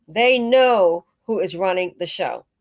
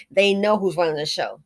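First: "They know who is running the show" said slowly, every word weighted; slow it down and press "who is running the show"; slow emphatic repeat. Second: Said in the usual way. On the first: Real, not acted.

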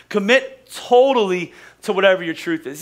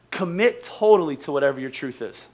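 First: The second time, punch totally; stress on totally. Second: Said in the usual way. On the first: Shown as a demonstration. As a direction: repeat it with weight on totally.

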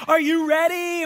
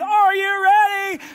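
First: Higher, louder game-show host build-up; TV host hype. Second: Slow, high, loud "ready" stretched out; milk the suspense slowly; drawn-out host tease. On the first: Pastor imitating the makeover host teasing the family, hyped. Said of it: "and they're like". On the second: Host asking again after the break, slow and stretched. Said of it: "They do it all over again". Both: Retold or imitated.

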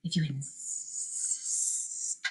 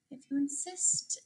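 First: Low, slow, very soft snake hiss. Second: Soft, sweet little reply. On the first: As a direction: stretch the s into a long quiet hiss. Boa constrictor answering the challenge. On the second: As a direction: answer softly and sweetly, as a friendly ladybug. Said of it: "said the friendly ladybug sweetly". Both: A narrator's reading.

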